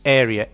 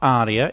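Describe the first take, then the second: First: The word is said like area. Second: The word is said like aria. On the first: The speaker calls it right. "A R E A is pronounced area" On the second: The speaker calls it wrong. "No, it's not aria. ... the mistaken pronunciation of this word"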